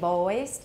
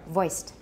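First: The vowel is drawn out long. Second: The vowel is kept short. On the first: The speaker calls it wrong. "don't say voiced" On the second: The speaker calls it right. "For me, it's pretty short"

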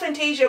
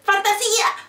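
First: It is pronounced with an English accent. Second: It is pronounced with a Spanish accent. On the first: "I'm just pronouncing it in English" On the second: "If I was Spanish, I'd say"

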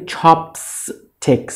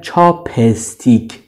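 First: No vowel comes between the p and s. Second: A vowel is inserted between the p and s. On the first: The speaker calls it right. "یعنی بین پ و اس هیچی نیست" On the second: The speaker calls it wrong. "یعنی بین پی و اس یک حرف صداداری میارن که این غلطه"

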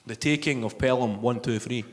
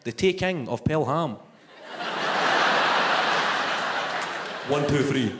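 First: The title is said at a normal pace. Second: The title is said slowly, numbers separated.

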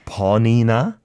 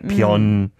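First: All syllables are said clearly and separately. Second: The syllables are squished together into one. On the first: The speaker calls it right. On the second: The speaker calls it wrong.

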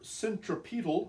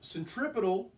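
First: It is pronounced in a British way. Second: It is pronounced in an American way.

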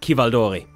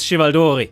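First: The name begins with a 'k' sound. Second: The name begins with a 'ch' sound. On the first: This is the proper Italian way to say the name. "like the name Chiara is not Chiara" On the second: This is how the name was said in an old game. "this is the correct pronunciation according to Jagged Alliance 2"

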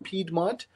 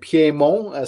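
First: The name is said with English pronunciation. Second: The name is said with French pronunciation. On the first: "It's also pronounced Piedmont in English" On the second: "there is the French pronunciation"

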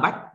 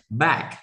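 First: The word is short and clipped, Vietnamese style. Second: The word is drawn out longer, English style. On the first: The speaker calls it wrong. "Tại vì tiếng Việt mình hay nói ngắn quá" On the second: The speaker calls it right. "còn tiếng Anh thì"

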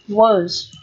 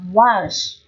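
First: The word is said weakly with a short 'uh' vowel. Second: The word is said strongly with a full 'ah' vowel. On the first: "Đọc nhẹ thì là words... âm ơ ngắn" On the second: "đọc mạnh... Was là âm á"

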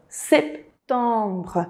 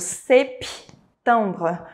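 First: The p sound is pronounced very subtly. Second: The p sound is pronounced strongly. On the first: The speaker calls it right. "Esse P do setembro, ele é muito sutil" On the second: The speaker calls it wrong. "Não pode ser dito septembre"

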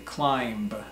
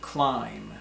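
First: The word ends with a pronounced B sound. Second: The word ends with no B sound. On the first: The speaker calls it wrong. "The B is silent, so we don't say climb" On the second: The speaker calls it right. "but climb"

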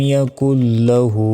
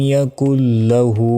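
No difference in how they are said.

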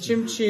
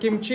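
First: The word begins with a ch sound. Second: The word begins with a k sound. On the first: This is how the speaker's local community says it. "а у нас говорят чимчи" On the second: This is how people from the listener's country say it. "у вас говорят кимчи"

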